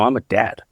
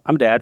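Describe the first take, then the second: First: It is said in an overwhelmed, sinking tone. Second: It is said in a casual, matter-of-fact tone. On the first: The full weight of the role has sunk in. "the implications of being actually realizing" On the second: It is a simple statement of fact. "you see the tone difference"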